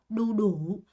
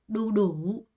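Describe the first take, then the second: Both takes have the same delivery.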